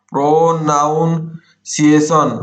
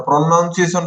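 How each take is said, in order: First: ପ୍ରନାଉନ୍ସିଏସନ drawn out in slow chunks; syllable-by-syllable dictation. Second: Said in the usual way. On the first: Shown as a demonstration. Teacher writing the word out for students, slow syllabled dictation. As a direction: break ପ୍ରନାଉନ୍ସିଏସନ into long, separate syllables.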